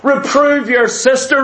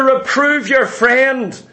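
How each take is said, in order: First: Said in the usual way. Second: "Reprove your friend" drawn out slowly; slow emphatic. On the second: Shown as a demonstration. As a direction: spell it out slowly for the congregation.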